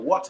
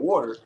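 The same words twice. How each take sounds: First: It is said in a non-American accent. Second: It is said in an American accent.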